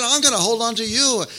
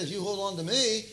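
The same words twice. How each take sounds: First: Loud, high, driving declaration; emphatic correction. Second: Softer, raised-pitch quote of the wrong version; rejected wording. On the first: Preacher declares what Jesus really said, loud emphatic correction. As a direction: proclaim "I'm gonna hold on to you" with force. Jesus' true words, set against the wrong. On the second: Preacher voices what Jesus didn't say, held back. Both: Acted.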